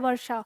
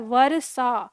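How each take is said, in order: First: The r is sounded only very lightly, without vowel. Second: The r is sounded fully with its own vowel. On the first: "तो र बहुत थोड़ा सा बोल रहे हैं" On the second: "तो ये पूरा र अ हो जाएगा"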